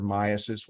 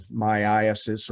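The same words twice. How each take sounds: First: Second variant of "myiasis"; alternative pronunciation. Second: First variant of "myiasis"; one accepted pronunciation. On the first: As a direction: say "myiasis" shortened, as MY-uh-sis. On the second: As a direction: say "myiasis" fully, as my-EYE-uh-sis. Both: Shown as a demonstration. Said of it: "whatever you wanna pronounce it".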